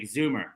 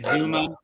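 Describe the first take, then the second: First: The name ends with an r-like vowel sound. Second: The name ends in a plain vowel, no r.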